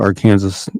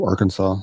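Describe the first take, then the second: First: It uses the local Kansas pronunciation. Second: It uses the usual state-name pronunciation. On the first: This is how the city in Kansas is named. "in Kansas, we call it Arkansas" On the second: This is how the state is named. "instead of Arkansas"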